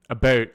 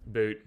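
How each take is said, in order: First: "A boat." with a clear long oh vowel, a bit louder; plain "boat". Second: "A boot." with an oo vowel, like Nova Scotian "boat"; mock "boot" pronunciation. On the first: Streamer insists to chat on "boat" with oh. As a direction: says "boat" his own way, firm oh sound. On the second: Streamer mocks chat's spelling, saying "boot" with oo. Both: Shown as a demonstration. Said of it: "I don't say a boot".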